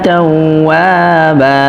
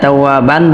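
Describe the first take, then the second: First: The word ends on a lengthened vowel. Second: The word ends with a final n sound. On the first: The speaker calls it right. "অক্ষর করলে তাওয়াবা বলে থামতে হবে, এক আলিফ মাদ হবে" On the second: The speaker calls it wrong. "এখানে তাওয়াবান বলতে পারবো না"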